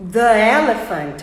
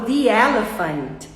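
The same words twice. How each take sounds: First: "the" as "thuh" before "elephant", slow and louder; clumsy schwa "the elephant"; awkward thuh elephant. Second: "the" as "thee", smoothly linked to "elephant"; easy thee elephant. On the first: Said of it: "fica mais difícil pra eu articular". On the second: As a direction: glide "the elephant" with ee. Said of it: "que é muito mais fácil". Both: Shown as a demonstration.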